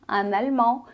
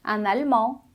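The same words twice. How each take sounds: The two takes are said the same way.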